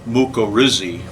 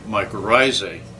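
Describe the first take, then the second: First: It uses a rarely heard pronunciation of the word. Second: It uses the everyday pronunciation of the word.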